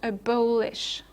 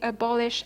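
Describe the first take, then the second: First: The stressed vowel is long and free. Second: The stressed vowel is short and checked. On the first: The speaker calls it wrong. "and not abolish" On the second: The speaker calls it right. "you say abolish"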